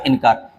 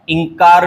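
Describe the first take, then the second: First: इनकार said lower as "in-kaar"; separate न. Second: इंकार said as "ing-kaar"; ng nasal. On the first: Teacher repeating the correction, इनकार with separate n. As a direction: sound a clear n in इनकार. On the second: Teacher repeating the mistake, इंकार as "ing-kaar". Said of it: "इंकार नहीं होता". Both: Shown as a demonstration.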